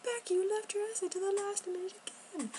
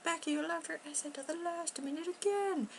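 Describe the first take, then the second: First: Higher mock self-scolding; scolding herself. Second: High mock nagging voice; scolding family. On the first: Becky telling herself off, high mock scolding. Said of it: "I'm like". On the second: Family scolding Becky for the late essay, high mock nag. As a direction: nag her like the family does. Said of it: "they're like".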